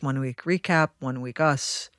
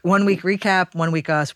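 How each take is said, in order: First: It is said at a normal pace. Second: It is said very fast.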